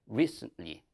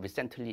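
First: The stress is on a long first syllable. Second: The first syllable is short and not stressed. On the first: The speaker calls it right. "re의 강세가 있어요. 장음이고요" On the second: The speaker calls it wrong. "이런 식의 분들도 있더라고요. 안 돼요"

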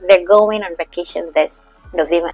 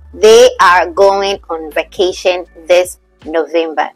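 First: 'They are' is contracted into one syllable. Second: 'They are' is said as two full words.

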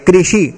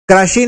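First: The first syllable is said with a 'ri' sound. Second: The first syllable is said without a 'ri' sound. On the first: The speaker calls it right. "ये कृषि" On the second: The speaker calls it wrong. "कृषि नहीं होता है"

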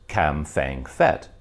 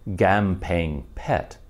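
First: It starts with a K, with an F sound. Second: It starts with a hard G, with a plain P. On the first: This is how foreigners say it. "all the foreigners who say the name follow the English letters" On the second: This is how Thai speakers say it. "as pronounced by the Thais, appears to be more like"

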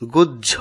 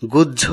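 No difference in how they are said.

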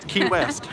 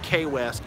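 First: The first word rhymes with 'see'. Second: The first word rhymes with 'say'. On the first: The speaker calls it right. "Key is the correct pronunciation" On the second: The speaker calls it wrong. "then I'm going to say K West"

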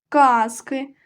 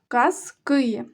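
First: The stress is on the first syllable. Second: The stress is on the second syllable. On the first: It refers to one tale. "Коли ми говоримо про однину, про один предмет, то наголошений перший склад" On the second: It refers to many tales. "А коли говоримо, що багато, то наголос падає на другий склад"

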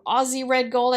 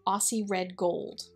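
First: Aussie is said with a Z sound. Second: Aussie is said with an S sound.

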